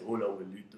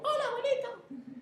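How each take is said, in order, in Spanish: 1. La voz es grave y profunda. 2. La voz es aguda, como la de un niño. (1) "frecuencia baja" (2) "así como Heidi"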